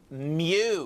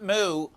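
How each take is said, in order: First: The word is said with a 'yoo' sound. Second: The word is said with a plain 'oo' vowel. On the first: The speaker calls it right. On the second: The speaker calls it wrong. "Not moo"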